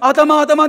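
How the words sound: It sounds pitying and tender.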